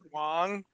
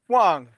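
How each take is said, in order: First: The pitch rises upward. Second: The pitch falls sharply downward.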